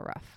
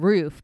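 First: The word is said quickly, with a shortened vowel. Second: The word is said carefully, with a full vowel. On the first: "if I say it quickly, I'll go rough" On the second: "I'm saying roof"

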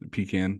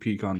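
First: Pecan is said in the Carolinas pronunciation. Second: Pecan is said in a non-Carolinas pronunciation. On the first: The speaker calls it right. "Pecan, sorry" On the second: The speaker calls it wrong. "But I also don't like pecan pie"

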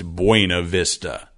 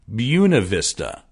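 First: The name is said the literal, expected way. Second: The name is said the local, unexpected way. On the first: The speaker calls it wrong. "it's not pronounced Buena Vista" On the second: The speaker calls it right. "It's pronounced something like Buena Vista"

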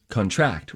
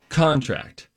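First: The stress is on the second syllable. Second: The stress is on the first syllable. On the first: It is a verb: to catch or shrink. "Verb, emphasize second" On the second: It is a noun: an agreement you sign. "So noun, emphasize first"

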